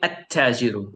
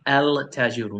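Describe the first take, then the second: First: The L is dropped and the T is doubled. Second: The article is said with a clear L sound. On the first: The speaker calls it right. "You say at tajiru. It's like you jump" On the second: The speaker calls it wrong. "So you do not say el tajiru. No, that's wrong"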